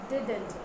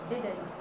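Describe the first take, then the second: No difference in how they are said.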